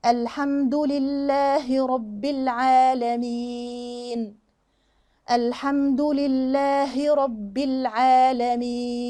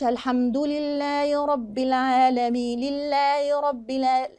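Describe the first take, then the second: First: Very slow recitation, sounding the h in "لله"; correct verse recitation. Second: Slow "الحمد لله رب العالمين" with the h of "لله" dropped; lost haa. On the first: Teacher recites the verse properly, slow and measured. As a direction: draw out the long vowels, each letter clear. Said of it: "نقولها بقى الآية". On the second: Teacher shows how the haa gets lost, h dropped. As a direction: swallow the h at the end of "لله". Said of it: "عليها عشان بتضيع". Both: Shown as a demonstration.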